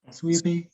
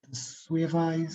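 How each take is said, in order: First: The middle consonant is a b sound. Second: The middle consonant is a v sound.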